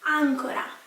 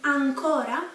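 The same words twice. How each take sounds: First: The stress is on the first syllable. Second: The stress is on the second syllable. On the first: "the accent is on the first A" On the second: "so the accent is in on the O"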